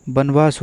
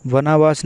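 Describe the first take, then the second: First: वनवास said as "banvaas"; वनवास in two syllables, b at the start; correct pronunciation. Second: वनवास said as "vanaa-vaas"; वनवास as वनावास; wrong pronunciation. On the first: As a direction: run n straight into v in वनवास. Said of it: "वनवास होता है". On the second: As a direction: add a vowel after the n in वनवास. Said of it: "वनवास नहीं". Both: Shown as a demonstration.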